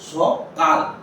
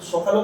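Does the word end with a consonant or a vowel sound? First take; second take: consonant; vowel. First: The word ends with a bare consonant sound. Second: The word ends with an added vowel sound. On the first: The speaker calls it right. "আমরা বলছি সকাল" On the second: The speaker calls it wrong. "সকালও তো আমরা বলি না"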